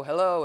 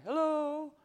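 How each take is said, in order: First: Hello called louder; calling hello. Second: Hello sung much higher, carried out; calling hello. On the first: Calling out again, louder, expecting an answer. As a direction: call hello out into space. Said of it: "where you go". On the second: Calling out to the universe, pitched high and hopeful. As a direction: call hello up into emptiness. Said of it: "sometimes calling out". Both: Retold or imitated.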